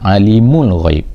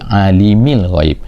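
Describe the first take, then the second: First: The vowel after the m is a u. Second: The vowel after the m is an i. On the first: "mim tu kan dibaca dengan baris depan" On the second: "mim tu baris bawah"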